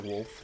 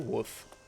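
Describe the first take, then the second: First: The L sound is clearly pronounced. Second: The L sound is dropped.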